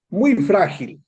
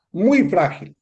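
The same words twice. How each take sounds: The two takes are said the same way.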